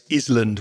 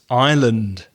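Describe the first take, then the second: First: The S sound is pronounced. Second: The S sound is silent. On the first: The speaker calls it wrong. "which is wrong. The S there is also silent" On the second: The speaker calls it right. "The S is not pronounced, so it's island"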